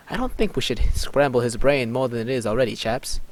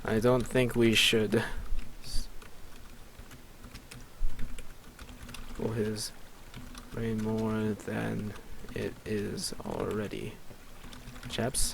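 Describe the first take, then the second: First: Said in the usual way. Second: Slow, soft, halting murmur; quiet, drawn-out words in broken chunks; composing aloud. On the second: Real, not acted. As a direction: dictate it slowly to yourself, with long gaps. Composing the line while typing it.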